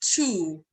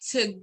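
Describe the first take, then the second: First: The word is said fully with a clear vowel. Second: The word is reduced with a weak vowel. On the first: "So it's the strong form" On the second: "Weak form again"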